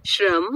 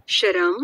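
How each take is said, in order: First: "શ્રમ" as one syllable, shram; written-form pronunciation. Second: "શરમ" in two syllables, sha-ram; split-cluster pronunciation. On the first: Teacher showing how it is written, "શ્રમ" said as tight shram. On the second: Teacher contrasting speech with spelling, "શરમ" said as sha-ram. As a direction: put a short vowel between sh and r in "શરમ". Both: Shown as a demonstration. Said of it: "લખવાની રીત અને બોલવાની રીતમાં ફેર".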